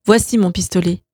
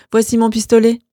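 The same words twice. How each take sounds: First: Said in the usual way. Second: Lightly higher, amused offer; smiling offer. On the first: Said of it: "Romain répétait". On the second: Acted. Roman offering his pistol to his brother, amused. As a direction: offer the gun with a smile. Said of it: "Il eut un sourire".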